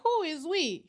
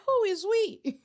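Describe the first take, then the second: First: Said in the usual way. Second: Higher, mock-French "Who is we?" with "we" like oui. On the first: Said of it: "she gonna turn around and be like". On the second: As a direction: pitch "Who is we?" up as a French joke. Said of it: "Do they speak French down there".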